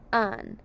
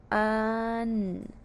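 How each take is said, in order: First: Said in the usual way. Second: "Un" stretched long on one level note; sounded out. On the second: Shown as a demonstration. Teacher says let's sound out un, drawn out. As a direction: hold both sounds of "Un" slowly. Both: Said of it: "let's sound out un".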